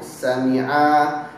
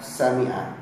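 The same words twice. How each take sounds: First: The final vowel of the word is lengthened. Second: No vowel in the word is lengthened. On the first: Two men have heard. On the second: One man has heard.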